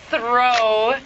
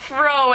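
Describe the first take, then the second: First: The first sound is made with the tongue between the teeth. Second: The first sound is made without the tongue between the teeth. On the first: The speaker calls it right. "Get that tongue between your teeth" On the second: The speaker calls it wrong. "you said throw instead of throw"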